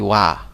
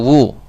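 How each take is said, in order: First: The w is followed by an a vowel. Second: The w is followed by a u vowel. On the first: The speaker calls it right. "karena dia pasti wa" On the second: The speaker calls it wrong. "atau wu"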